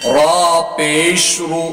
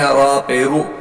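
First: The middle word is said in full as 'pesh'. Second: The middle word is clipped to a short 'pe'. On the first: The speaker calls it right. "پیش کا جملہ پورے اچھی طریقے سے ادا کریں" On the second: The speaker calls it wrong. "پیش برابر نہیں پڑھتے"

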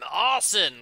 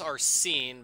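First: The name begins like the word 'arson'. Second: The name does not begin like 'arson'. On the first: "like an arsonist" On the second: "I think it's Arsene"

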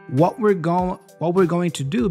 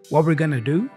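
First: The words 'going to' are said in full. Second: The words 'going to' are reduced to 'gonna'. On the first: "what we're going to do becomes" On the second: "becomes what we're gonna do"

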